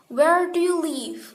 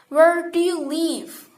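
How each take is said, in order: First: The pitch starts high and falls at the end. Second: The pitch falls on where, then rises at the end. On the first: The question is being asked for the first time. "The pitch of the voice starts relatively high and falls at the end" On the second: The question is being repeated because the answer was forgotten. "the voice falls on the word where and rises again toward at the end of the question"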